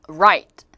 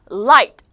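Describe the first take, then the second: First: "right" loud with untouched, rounded r; R sound. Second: "Light" loud, tongue tip touching on L; L sound. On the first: Teacher models for viewers, "right" with r. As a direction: keep tongue off the roof for "right". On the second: Teacher models for viewers, "Light" with crisp L. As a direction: release a clear L in "Light". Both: Shown as a demonstration. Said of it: "요거 발음 한번 해볼게요".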